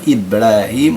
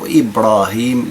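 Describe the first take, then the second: First: The r sound is light and thin. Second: The r sound is heavy and full. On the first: This follows the usual rule. "من الأصل أن نقرأ إبراهيم" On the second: This is the exception for a foreign word. "ولكن تقرأ إبراهيم"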